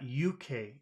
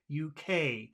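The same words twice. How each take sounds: First: The stress falls on the first letter. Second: The stress falls on the last letter. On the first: The speaker calls it wrong. "but it's not U K" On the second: The speaker calls it right. "It's the opposite. It's U K because you always put the emphasis on the final letter"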